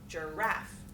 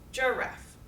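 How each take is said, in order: First: The stress is on the second syllable. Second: The stress is on the first syllable. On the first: "weak, strong words" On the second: "with strong stress on that first syllable"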